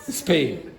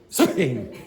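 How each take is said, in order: First: The word starts directly with the s sound. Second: The same.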